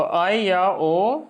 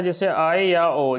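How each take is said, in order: First: आय और ओ very slowly stretched, ओ rising at the end; drawn-out diphthong demo. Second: आय और ओ को धीरे, अलग-अलग साफ़ बोलना; slow diphthong demo. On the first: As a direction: stretch आय and ओ long, lift the final ओ. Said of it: "का उच्चारण नागपुरिया". (आय और ओ को बहुत खींचकर, ओ पर आवाज़ ऊपर) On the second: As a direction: spell out आय and ओ slowly, each vowel clear. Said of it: "जिसको हम लोग संयुक्त स्वर बोलेंगे". (आय और ओ धीरे-धीरे, साफ़ उच्चारण) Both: Shown as a demonstration.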